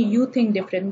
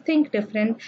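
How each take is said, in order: First: You pressed as a command, then think different; You said with command weight; stress on You. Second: Said in the usual way. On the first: Shown as a demonstration. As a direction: lean on the word You as an order. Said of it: "somebody is telling me". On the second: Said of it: "It is just".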